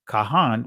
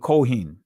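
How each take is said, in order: First: The first vowel sounds like 'a'. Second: The first vowel sounds like 'o'. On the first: This is the ancient form. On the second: This is the usual modern form.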